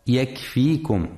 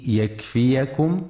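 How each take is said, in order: First: "يكفيكم" said yakfikum, the second ي a long i; sukun on the ya. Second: "يكفيكم" said yakfiyakum, with an a after the second ي; fatha on the ya. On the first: Teacher showing listeners the reading to avoid, "يكفيكم" as yakfikum. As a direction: drop the vowel after the second ي in "يكفيكم": yakfikum. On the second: Teacher showing listeners the correct reading, "يكفيكم" as yakfiyakum. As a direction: give the second ي in "يكفيكم" its own syllable, ya. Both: Shown as a demonstration. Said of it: "لفتح الياء وعدم سكونها".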